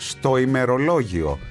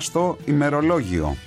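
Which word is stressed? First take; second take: ημερολόγιο; στο. First: The noun after the article carries the stress. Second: The article before the noun carries the stress. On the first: The speaker calls it right. "Το σωστό είναι" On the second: The speaker calls it wrong. "τονίζω το άρθρο αντί τη λέξη που ακολουθεί"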